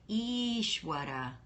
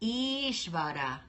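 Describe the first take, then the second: First: The middle consonant is a W sound. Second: The middle consonant is a V sound. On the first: "or you could say Ishwara" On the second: "you've got this V or W"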